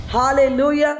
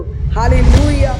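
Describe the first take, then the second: First: Said in the usual way. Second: Slow, stretched and much louder praise cry; loud drawn-out hallelujah. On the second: Real, not acted. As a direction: hold each syllable out in jubilant praise. Preacher exclaims praise. (ದೀರ್ಘವಾಗಿ ಎಳೆದ ಜೋರಾದ hallelujah)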